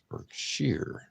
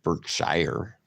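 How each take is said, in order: First: The last syllable rhymes with deer. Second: The last syllable does not rhyme with deer. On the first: The speaker calls it right. "It's Berkshire" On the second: The speaker calls it wrong. "It's not Berkshire"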